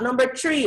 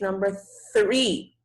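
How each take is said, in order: First: Three does not begin with a th sound. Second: Three begins with a clear th sound. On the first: The speaker calls it wrong. "It's not number three" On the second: The speaker calls it right. "it's number three"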